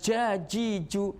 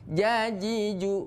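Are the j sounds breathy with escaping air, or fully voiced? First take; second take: breathy; voiced. First: The j sounds let air escape, sounding breathy. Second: The j sounds are fully voiced without escaping air. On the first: The speaker calls it wrong. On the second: The speaker calls it right.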